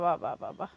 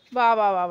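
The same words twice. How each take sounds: First: Lower, softer dry "bravo"; sarcastic, fading off. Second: Mock "wah wah" with a dry falling tune; lower, sarcastic bravo; sarcastic praise. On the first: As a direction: lower and much softer mock praise trailing away. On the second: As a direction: praise it so it sounds like a put-down. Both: Real, not acted. Mother mocks child's "work.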